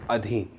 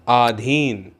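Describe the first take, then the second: First: The first vowel is short. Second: The first vowel is long. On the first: The speaker calls it right. "तो फिर शुद्ध क्या है" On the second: The speaker calls it wrong. "ये अशुद्ध है"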